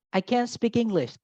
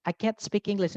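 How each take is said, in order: First: "can't" said as "can", with no T at the end; can without a T. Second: "can't" with its final T barely released; barely pronounced T. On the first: Teacher showing listeners the positive "can't" as "can". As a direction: say "can't" as plain "can", ending on N. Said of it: "bedanya can sama can't". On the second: Teacher showing how alike it sounds, "can't" with swallowed T. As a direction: clip the end of "can't", T almost swallowed. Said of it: "T-nya nggak terlalu dibaca". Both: Shown as a demonstration.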